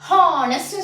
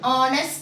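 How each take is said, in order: First: The word begins with an audible H sound. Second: The word begins without any H sound. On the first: The speaker calls it wrong. "Honest சொல்ல மாட்டோம்" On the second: The speaker calls it right. "Honest தான் சொல்றோம்"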